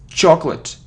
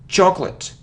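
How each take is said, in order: Both takes have the same delivery.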